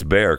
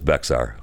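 First: The name is said with no ks sound. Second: The name is said with a ks sound. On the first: This is how locals say it. "I think that's how they pronounce it" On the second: This follows the spelling. "it's spelled with an X, so it's Bexar"

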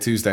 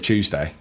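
First: It is said in a plain American accent. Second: It is said in a British accent. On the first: "every time I say Tuesday" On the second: "I feel like I should say Tuesday"

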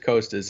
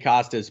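First: The first syllable sounds like coast. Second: The first syllable does not sound like coast. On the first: The speaker calls it right. "but it is Costas" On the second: The speaker calls it wrong. "I want to say Costas"

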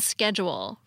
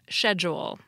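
First: It is said with an American pronunciation. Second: It is said with a British pronunciation. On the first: "American alternatives like ... schedule" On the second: "for British English schedule"

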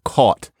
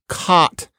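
First: The vowel is a rounded 'aw' sound. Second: The vowel is an open 'ah' sound. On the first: This is the older pronunciation being replaced. "instead of caught" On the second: This is how many younger speakers say it. "increasing numbers of young Americans say caught"

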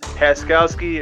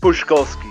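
First: The surname is pronounced with American English sounds. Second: The surname is pronounced with Polish sounds. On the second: "if you're going to say in Polish"

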